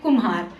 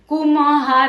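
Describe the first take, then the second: First: The m is short and light, without vowel. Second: The m is said as a full syllable. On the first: The speaker calls it right. "हम बोलते कुम्हार, हल्की ध्वनि में पढ़ते हैं" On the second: The speaker calls it wrong. "इसलिए हम इसे पूरा म नहीं पढ़ते, कुम्हार ऐसे नहीं बोलते"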